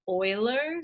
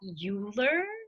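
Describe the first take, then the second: First: The first syllable sounds like 'oil'. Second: The first syllable does not sound like 'oil'. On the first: The speaker calls it right. "you pronounce it Euler, so it kind of sounds like Euler, like gas and oil" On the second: The speaker calls it wrong. "you do not pronounce that Euler"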